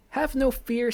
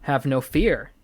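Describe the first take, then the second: First: "Have no fear" lifted much higher in pitch. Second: Said in the usual way. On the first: Acted. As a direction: jump up high on "Have no fear". Cat reassures, said twice.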